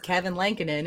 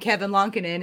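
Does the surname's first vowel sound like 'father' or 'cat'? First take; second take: cat; father. First: The surname's first vowel sounds like 'cat'. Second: The surname's first vowel sounds like 'father'. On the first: This is how most people say the name. The speaker calls it wrong. "everybody says Kevin Lankinen" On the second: This is how the player says his own name. The speaker calls it right. "who says his name Kevin Lonkinen"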